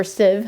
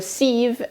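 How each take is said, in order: First: "sieve" with a short i, as in "siv"; short-i pronunciation. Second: "sieve" with a long ee, as in "seev"; long-ee pronunciation. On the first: Giving viewers the alternative, "sieve" said as "siv". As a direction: make "sieve" rhyme with give. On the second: Explaining the straining to viewers, "sieve" said as "seev". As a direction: make "sieve" rhyme with leave. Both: Shown as a demonstration. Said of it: "however you wanna say it".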